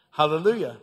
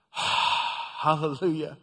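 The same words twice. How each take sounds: First: Said in the usual way. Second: Sighed hallelujah. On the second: Real, not acted. Preacher savoring the healing, slow sighed praise. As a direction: breathe out hallelujah in slow relief.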